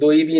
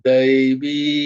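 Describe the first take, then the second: First: The final vowel is short and clipped. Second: The final vowel is long and drawn out. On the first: The speaker calls it wrong. "ওখানে দৈবী নয়" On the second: The speaker calls it right. "দীর্ঘই, তাই উচ্চারণটা একটু টান হবে"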